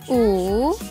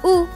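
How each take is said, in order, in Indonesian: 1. Diucapkan dengan nada ketiga. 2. Diucapkan dengan nada keempat. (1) "Bentuk ketiga" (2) "Lalu bentuk keempat"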